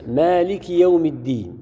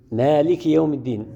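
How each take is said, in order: First: Slow recited مالك يوم الدين; measured tajweed reading; Quranic recitation. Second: Said in the usual way. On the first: Shown as a demonstration. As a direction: recite the verse slowly, as in prayer. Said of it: "مثل". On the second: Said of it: "لفظًا نقرأها مالك".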